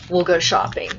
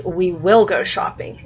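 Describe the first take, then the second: First: "We'll" run together as one syllable; contracted. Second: Slower, with "We will" as two separate words; uncontracted. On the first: Teacher reads mom's line as people talk, with "We'll" shortened. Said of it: "it says, "We will go shopping". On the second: Teacher shows what the book says, with "We will" in full. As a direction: give "will" its full word after "We". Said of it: "And see, it says". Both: Shown as a demonstration.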